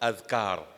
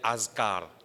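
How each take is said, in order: First: The middle consonant is a th sound. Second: The middle consonant is a z sound. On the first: The speaker calls it right. "Ce pluriel" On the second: The speaker calls it wrong. "qui n'est pas supposé prononcer comme ça"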